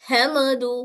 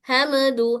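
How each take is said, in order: Both takes have the same delivery.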